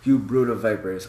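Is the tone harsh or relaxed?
harsh. It is said in a harsh, offensive tone.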